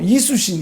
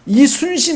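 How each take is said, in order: First: The n sound before the last syllable is dropped. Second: The n sound before the last syllable is kept. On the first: The speaker calls it wrong. "이수신, 이수신 그랬어요" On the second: The speaker calls it right. "이순신 안 하고"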